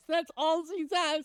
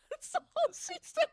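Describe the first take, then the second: First: Said in the usual way. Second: High giggle through the words; can barely get it out for laughing; real laughter bubbling up. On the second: Real, not acted. Cracking up retelling the mix-up.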